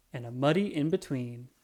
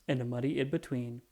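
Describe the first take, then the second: No difference in how they are said.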